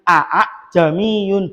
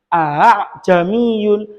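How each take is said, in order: First: Both glottal stops are fully and sharply pronounced. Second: The second glottal stop is softened and slightly drawn. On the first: The speaker calls it wrong. "bukan aa jamiyun, bukan" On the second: The speaker calls it right. "agak diolor sedikit"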